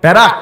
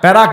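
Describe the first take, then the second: First: The first syllable has a 'ya' vowel. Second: The same.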